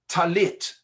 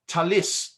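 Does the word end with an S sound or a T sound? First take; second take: T sound; S sound. First: The word ends with a t sound. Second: The word ends with an s sound.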